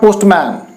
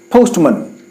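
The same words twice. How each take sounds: First: The final syllable has a full, clear vowel. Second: The final syllable has a weak, reduced vowel. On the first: The speaker calls it wrong. "not postman" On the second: The speaker calls it right. "it is sounded as man"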